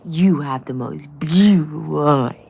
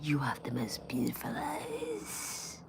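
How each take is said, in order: First: It is said in a cutesy, sweet tone. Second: It is said in a creepy, leering tone. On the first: The speaker calls it right. "Why do I talk to animals that way?" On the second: The speaker calls it wrong. "I didn't say it like that. That's very creepy"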